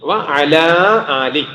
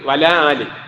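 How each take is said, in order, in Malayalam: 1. നടുവിലെ സ്വരം നിലനിൽക്കുന്നു, 'wa-ala ali' എന്ന് വരുന്നു. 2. നടുവിലെ സ്വരം ഒഴിവാകുന്നു, 'wala ali' എന്ന് വരുന്നു. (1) "അങ്ങനെയാണ് പറയണം" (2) "സ്പീഡാ പറയുമ്പോ എങ്ങനെ വന്നു പോകും"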